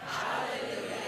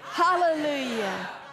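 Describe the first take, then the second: First: It is said at normal, softer volume. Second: It is said at a louder volume.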